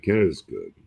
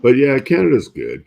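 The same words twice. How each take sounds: First: Said in the usual way. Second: Emphatic. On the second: Real, not acted. Enthusiastic praise of Canada.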